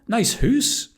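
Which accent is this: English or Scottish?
Scottish. It is said in a Scottish accent. "In Scotland"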